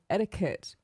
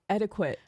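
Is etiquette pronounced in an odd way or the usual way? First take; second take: usual; odd. First: The word is pronounced the usual way. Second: The word is pronounced in an odd way. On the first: The speaker calls it right. "instead of saying etiquette" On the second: The speaker calls it wrong. "they'll say etiquette"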